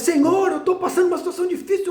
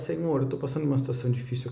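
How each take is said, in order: First: It is cried out in an anguished voice. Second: It is said in a calm, plain voice. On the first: All the inner burden is poured out in a cry. "você jogar para fora o contexto, toda a carga que está por dentro. É clamar" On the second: The need is simply stated and help is asked for. "É diferente você virar e falar"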